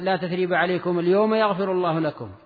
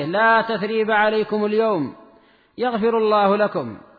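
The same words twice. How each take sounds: First: There is no pause until after لكم. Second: There is a pause right after اليوم. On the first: God will forgive them on that very day. The speaker calls it wrong. "فيقف على يغفر الله لكم" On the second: There is no blame today, and a prayer for forgiveness follows. The speaker calls it right. "والوقف على اليوم أصح"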